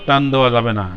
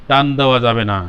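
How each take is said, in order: No difference in how they are said.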